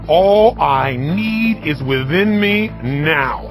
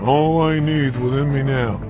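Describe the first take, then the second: First: It is said loudly and forcefully, with energy. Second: It is said quietly and flatly, without energy. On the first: It is felt with the whole body. The speaker calls it right. "it needs to be out loud" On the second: It is merely recited as an affirmation. The speaker calls it wrong. "This is not an affirmation"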